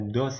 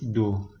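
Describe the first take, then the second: First: The word ends with an audible s sound. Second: The word ends on the vowel, no s sound. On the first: It is read the way an Indonesian reader would. The speaker calls it wrong. "Kalau dalam bahasa Indonesia kan do, eh, dos ya" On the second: It follows the French rule for final letters. The speaker calls it right. "Tapi dalam bahasa Prancis do"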